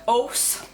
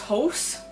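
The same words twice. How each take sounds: First: The h at the start is dropped. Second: The h at the start is pronounced. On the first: The speaker calls it wrong. "We don't pronounce our H's" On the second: The speaker calls it right. "which is"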